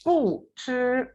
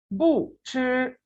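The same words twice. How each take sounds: First: Said in the usual way. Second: बू ची said very slowly, बू with a clear falling tone; drawn-out model of बू ची; slow tone demo. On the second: Shown as a demonstration. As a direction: stretch out बू ची to show the tone. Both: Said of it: "बू की tone change नहीं हुई".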